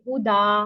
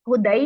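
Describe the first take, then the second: First: The word ends on a long a vowel. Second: The word ends with an ai sound. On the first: The speaker calls it right. "हम करते हैं जी वक्फ। तो हम करेंगे हुदा" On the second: The speaker calls it wrong. "हुदई नहीं पढ़ देना इसको किसी ने भी"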